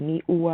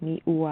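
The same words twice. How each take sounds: The two takes are said the same way.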